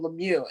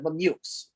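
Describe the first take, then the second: First: The final x is silent. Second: The final x is sounded. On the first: The speaker calls it right. "and the X is silent" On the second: The speaker calls it wrong. "that's not how you say it"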